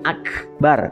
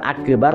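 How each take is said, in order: First: The k sound is held still without bouncing. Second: The k sound is released with an echoing bounce. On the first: The speaker calls it right. "tapi akbar karena dia kaf bukan qaf" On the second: The speaker calls it wrong. "bukan akbar"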